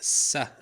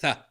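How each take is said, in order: First: It begins with an s sound. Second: It begins with a th sound. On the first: It is a slang or regional accent. "In some accents, in slang, it's pronounced sa" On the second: It is the standard pronunciation. "mostly it's pronounced tha, as in thanks"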